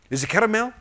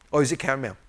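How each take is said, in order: First: CARAMEL said in three syllables, car-a-mel. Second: CARAMEL shortened to two syllables, car-mel. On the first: Preacher showing US variants of a word, caramel in three syllables. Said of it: "certain words are pronounced differently". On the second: Preacher showing US variants of a word, caramel in two syllables. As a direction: say caramel as car-mel, middle vowel dropped. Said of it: "Three syllable or two syllable?". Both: Shown as a demonstration.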